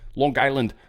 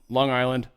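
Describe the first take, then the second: First: The words run together with a hard G sound. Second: The two words are said separately and plainly. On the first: The speaker calls it right. "put the two words together, but you gotta really hit the G" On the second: The speaker calls it wrong.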